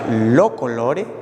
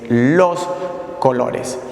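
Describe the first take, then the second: First: The final s sounds are dropped. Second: The final s sounds are pronounced. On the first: This is how it was said in colonial times. "La S tuvo algunas alteraciones. Se pronunciaba lo colore" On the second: This is how it is said today. "y hoy es los colores"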